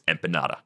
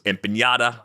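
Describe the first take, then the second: First: The last n is a plain n. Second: The last n sounds like ny. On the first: The speaker calls it right. "It's empanada" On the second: The speaker calls it wrong. "I thought there was a tilde on the end"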